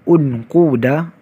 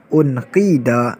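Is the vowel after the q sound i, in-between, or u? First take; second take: u; i. First: The vowel after the q is u. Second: The vowel after the q is i. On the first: "Yang pertama, dhammah" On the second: "Wajah yang kedua, kasrah"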